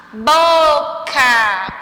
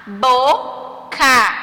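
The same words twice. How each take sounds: First: BOCA with BO long and strong; stressed syllable exaggerated. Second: BOCA split into two separate syllables. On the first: Teacher showing pupils the stronger syllable, BO drawn out in "Boca". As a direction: stretch and push the first syllable of "Boca". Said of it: "parece ter um som mais forte". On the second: Teacher reading words for pupils, syllable by syllable. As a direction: say "Boca" slowly, with a gap between syllables. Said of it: "O que você percebeu ao pronunciá-las". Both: Shown as a demonstration.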